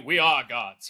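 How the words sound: It sounds proud and glorious.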